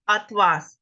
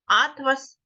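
First: АтЛАС, stress on the second syllable; атлас with the stress on the final а. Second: АТлас, stress on the first syllable. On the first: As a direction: say атлас as ат-ЛАС, hitting the last syllable. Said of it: "наголос буде падати на другий склад". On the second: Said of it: "наголос падає на перше". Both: Shown as a demonstration.

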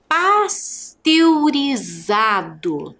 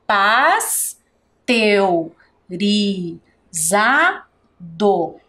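First: Pasteurizado stretched out syllable by syllable; slow syllables. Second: Pasteurizado drawn out very slowly, each syllable apart. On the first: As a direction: drag the word out for dictation. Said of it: "registre aí a palavra pasteurizado". (bem devagar, sílaba por sílaba) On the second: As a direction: dictate it at a crawl. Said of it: "Esta palavra tem cinco sílabas". (muito devagar, separando as sílabas) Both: Shown as a demonstration.

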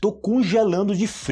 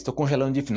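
First: Raised, louder example phrase; teacher sets up a common phrase, lifting the voice. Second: Said in the usual way. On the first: Shown as a demonstration. Teacher quotes a common phrase, pitch raised and louder. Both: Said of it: "Isso aí é muito comum você escutar em português".

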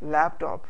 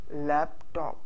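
First: Said in the usual way. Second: laptop split in two, "lap... top"; laptop broken into two separate beats; syllable by syllable. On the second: Shown as a demonstration. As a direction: pause between the two halves of laptop. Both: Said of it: "उनको अलहदा-अलहदा बोलना होता है".

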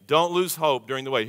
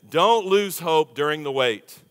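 First: Said in the usual way. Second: "Don't" leaned on, each word spaced and slow; slow emphatic. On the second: Real, not acted. Preacher urging the congregation not to lose hope, slow and weighty. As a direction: press "Don't" and let the line land slowly.

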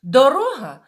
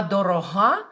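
First: "Дорога" stressed on РО, high and loud; middle-syllable stress. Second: "дорога" stressed on ГА, louder; final-syllable stress. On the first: Teacher explains the word for road, stress on РО in "Дорога". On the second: Teacher contrasts it with road, stress on ГА in "дорога". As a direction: land on the last syllable of "дорога". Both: Shown as a demonstration. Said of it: "з допомогою переносу наголоса".

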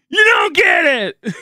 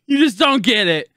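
First: High, loud, drawn-out yell; frustrated scream. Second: Anguished retort. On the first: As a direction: scream it slowly at them. Screams the retort at chat. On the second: Retort to chat before screaming it. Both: Real, not acted.

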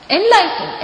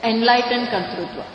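First: Enlightened said higher and louder, punched; emphatic repeat. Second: Said in the usual way. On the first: Shown as a demonstration. Teacher to students, Enlightened stressed higher and louder. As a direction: hit Enlightened high and hard.

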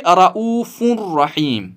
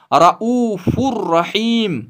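First: रऊफुर रहीम said as ra'ufun rahim with the n kept; wrong nasal reading. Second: रऊफुर रहीम slow, with the final n swallowed into a doubled r; correct merged recitation. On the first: Teacher showing students the wrong reading, nun sounded. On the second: Teacher demonstrating the right Quran reading slowly, without the nasal. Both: Shown as a demonstration. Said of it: "न कि रऊफुर रहीम".

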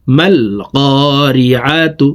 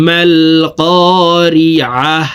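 First: Said in the usual way. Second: Slow, drawn "করিআহ" closing in a breath of h; pausal h ending. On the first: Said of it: "গোলতা ওয়াকফের ক্ষেত্রে". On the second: Shown as a demonstration. Teacher showing the stop on round ta, "করিআহ" closed with a silent-vowel h. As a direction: end "করিআহ" on a still, audible "হ". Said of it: "দেখুন এইভাবে পড়তে হবে".

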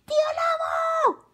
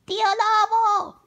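First: Piercing, extremely high scream; louder girl's shout. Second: Put-on high, drawn-out girlish call; girl's shout. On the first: Carmela losing patience at the door, piercing shout. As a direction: scream the name at full pitch. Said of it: "gritó más fuerte". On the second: Carmela calling at the wolf's door, high shout. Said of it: "gritó Carmela". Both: A narrator's reading.

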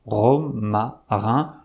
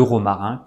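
First: "Romarin" broken into slow, separate syllables. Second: Said in the usual way. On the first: Shown as a demonstration. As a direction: say "Romarin" in pieces, pausing between syllables. Splitting charade answer into its syllables.

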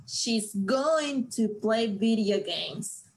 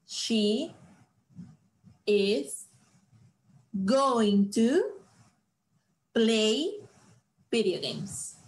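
First: Said in the usual way. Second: Long pauses between "She", "is", "going to", "play", "video games"; word by word. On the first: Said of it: "¿cuál es su plan?". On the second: Shown as a demonstration. Teacher spells out the sentence word by word for students.

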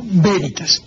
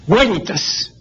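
First: "Veritas" as BÉ-ri-tas, a Spanish B with stress on the first syllable; traditional Spanish veritas. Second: "veritas" as WÉ-ri-tas, with a W sound like the u of hueso; classical Latin veritas. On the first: Teacher demonstrating the traditional reading to a radio listener. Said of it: "como voz esdrújula". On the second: Teacher demonstrating the classical reading to a radio listener. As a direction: start "veritas" with a W glide, first syllable stressed. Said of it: "de acuerdo con la pronunciación clásica". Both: Shown as a demonstration.

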